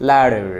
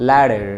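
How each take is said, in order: The two takes are said the same way.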